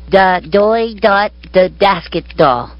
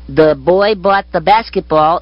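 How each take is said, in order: First: The b sounds are pronounced as d. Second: The b sounds are pronounced as b.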